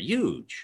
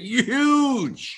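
First: The word is said in a normal voice. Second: The word is said in an imitated voice.

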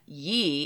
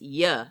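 First: The word is said with a long ee vowel. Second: The word is said with a short ya vowel. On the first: The speaker calls it wrong. "where it's not ye" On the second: The speaker calls it right. "You should be pronouncing it in your head, ye, like, Y-A or something"

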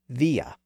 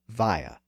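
First: The first vowel sounds like 'ee'. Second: The first vowel sounds like 'eye'. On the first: "with its original vowel sound pronounced via" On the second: "many English speakers have converted it into via"

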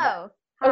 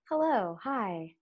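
First: The voice sounds tight, tense and heady. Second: The voice sounds loose, low and relaxed.

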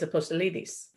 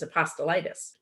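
First: The name is said with a Greek pronunciation. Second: The name is said with an American pronunciation. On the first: The speaker calls it right. "the proper Greek way is" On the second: The speaker calls it wrong. "the Americanized pronunciation is"

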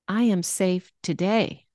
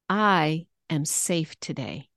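First: The stress is on the word today. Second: The stress is on the word I.

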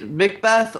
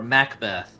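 First: The first syllable has a reduced 'mick' vowel. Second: The first syllable has a full 'mac' vowel.

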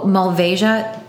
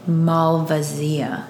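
First: The word is said with an American pronunciation. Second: The word is said with an Italian pronunciation. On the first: "that's the American way to pronounce it" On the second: "the Italian way, or Slovenian way, is the Malvasia"

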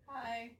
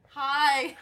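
First: It is said very quietly. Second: It is said more loudly.

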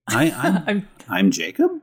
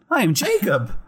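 First: The voice goes up at the end. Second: The voice goes down at the end. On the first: The speaker sounds like he is asking. The speaker calls it wrong. "That sounded like a question" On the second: The speaker sounds like he is stating it. The speaker calls it right. "I must answer in the form of an exclamation"

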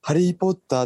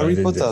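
First: It is said with a Japanese katakana accent. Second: It is said with a native English accent.

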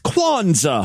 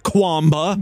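First: The middle consonants sound like 'nz'. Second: The middle consonants sound like 'mb'. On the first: The speaker calls it right. "It's Kwanzaa" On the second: The speaker calls it wrong. "not Kwamba"

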